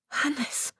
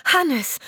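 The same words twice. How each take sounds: First: Hoarse. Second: High, loud joyful cry of the name; Hannes! flung out loud and high, sliding down. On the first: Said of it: "Ihre Stimme klang so heiser". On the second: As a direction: call him out in happy relief. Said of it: "rief sie". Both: Acted.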